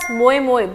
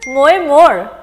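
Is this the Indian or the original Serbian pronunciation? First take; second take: Indian; Serbian. First: It is said the way Indians say it. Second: It is said the original Serbian way. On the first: The speaker calls it wrong. "Indians are pronouncing it as MOYE-MOYE" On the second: The speaker calls it right. "but basically it is MOYE-MOYE"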